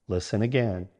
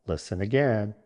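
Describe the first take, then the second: No difference in how they are said.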